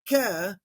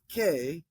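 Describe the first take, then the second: First: The vowel is pronounced like epsilon. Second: The vowel is pronounced like eta. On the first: The speaker calls it right. "alpha iota makes the same sound as epsilon" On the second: The speaker calls it wrong. "not k"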